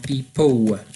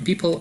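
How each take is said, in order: First: The final L sounds like a w vowel. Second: The final L is a clear L sound. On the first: This is how British speakers say it. "a oni powiedzą people" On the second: This is how Polish speakers normally say it. "my mówimy normalnie people"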